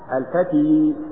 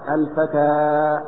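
First: The word ends in a long 'ee' vowel. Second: The word ends in a long 'a' vowel. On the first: The speaker calls it wrong. "لا تقل على الياء الفتي" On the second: The speaker calls it right. "الفتى وإن كتبت ياء فهي ألف"

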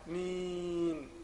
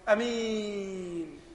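First: The first vowel is held for six beats. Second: The first vowel is short and not lengthened. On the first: "بعض الناس يقول ايه ست حركات" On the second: "بعض الناس يقول أمين برضو، يبقى انت كده قصرته برضو غلط"

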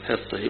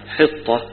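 First: The ending is tilted toward an e sound. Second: The ending is kept open, like a. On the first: "هنا أيضا بالإمالة يقولوا فيها إمالة الهاء" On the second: "الأشهر عدم الإمالة في الكلمة"

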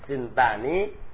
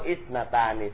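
First: The word starts directly with a consonant. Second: The word starts with a short vowel sound. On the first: "Sintani biduni alif ya" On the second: This is the widely known form. "Sawaun inti baca isnani dengan alif"

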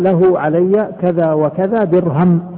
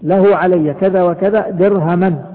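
First: The last word ends with no final vowel. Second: The last word ends with the sound -an. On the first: The amount is part of a dirham. "بالسكون يعني وقف عليها" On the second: The amount is explained as a whole dirham. "في النصب"

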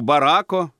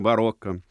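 First: The middle vowel sounds like 'a'. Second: The middle vowel sounds like 'o'. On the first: The speaker calls it wrong. "как он исказил это слово" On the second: The speaker calls it right. "вместо барокко"

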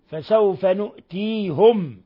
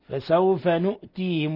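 First: The last word ends with -hum, a u vowel. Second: The last word ends with -him, an i vowel. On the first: "بالنون وضم الهاء" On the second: "بالنون وكسر الهاء"

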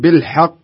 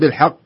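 First: The final sound stops short and abruptly. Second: The final vowel is drawn out like a long vowel. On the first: The speaker calls it right. "شوف ينتهي الصوت بالحق، خلاص انتهى" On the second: The speaker calls it wrong. "ما أقول"

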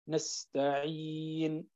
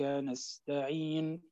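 First: The long vowel is held for four counts. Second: The long vowel is held briefly, two counts. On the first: "4 حركات" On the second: "حركتين"

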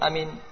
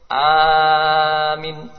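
First: The first vowel is short. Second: The first vowel is long. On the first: "memendekkan hamzah dan mim" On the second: "Memanjangkan hamzah dan memendekkan mim"

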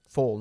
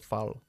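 First: The vowel sounds like the vowel in 'call'. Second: The vowel does not sound like 'call'. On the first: The speaker calls it right. "Es como call" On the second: The speaker calls it wrong. "no fall"

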